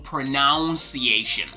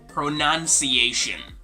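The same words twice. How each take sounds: First: The second syllable sounds like 'noun'. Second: The second syllable sounds like 'nun'. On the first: The speaker calls it wrong. "Not pronunciation" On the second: The speaker calls it right. "This is gonna be pronunciation"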